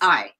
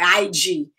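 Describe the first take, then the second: First: There is no final d sound. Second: The final d is said strongly. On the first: "it's not just I" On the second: "It's not like strong, like I G"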